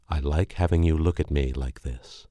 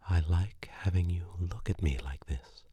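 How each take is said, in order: First: Said in the usual way. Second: Hushed unvoiced whisper; whispered repeat. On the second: Girlfriend echoing his line in a whisper. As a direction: breathe the words back to him.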